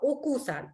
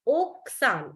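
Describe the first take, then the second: First: The u vowel after k is clearly voiced. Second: The u vowel after k is dropped. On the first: The speaker calls it wrong. "and not Okusan" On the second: The speaker calls it right. "Someone else's wife is Oksan"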